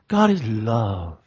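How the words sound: It is said in a soft, syrupy, sentimental way. Love is treated as something sentimental and weak. The speaker calls it wrong. "it's almost ooey-gooey when they say it"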